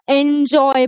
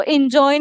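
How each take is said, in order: First: "एंजॉय" slow, with a drawn-out "en"; correct pronunciation. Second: "एंजॉय" begun with a short "in"; mispronunciation. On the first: Teacher correcting students, "एंजॉय" said slowly as en-joy. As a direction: stretch "एंजॉय" as ennn-joy. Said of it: "इसको एंजॉय बोलेंगे". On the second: Teacher warning against the mistake, "एंजॉय" mispronounced in-joy. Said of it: "नहीं बोलते". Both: Shown as a demonstration.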